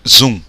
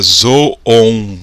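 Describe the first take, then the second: First: The vowel is an 'oo' sound. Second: The vowel is an 'oh' sound. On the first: The speaker calls it right. "pronuncia com U" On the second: The speaker calls it wrong. "seria zoon"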